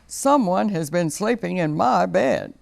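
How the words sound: It is said in Papa Bear's big voice.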